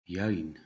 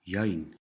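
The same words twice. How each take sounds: No difference in how they are said.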